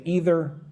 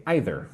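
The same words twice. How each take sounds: First: Either with a long EE first vowel; either starting like "eat"; "ee-ther" pronunciation. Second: Either with an EYE first vowel; either starting like "eye"; "eye-ther" pronunciation. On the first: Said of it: "some people say either". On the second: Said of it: "Some people say either". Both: Shown as a demonstration.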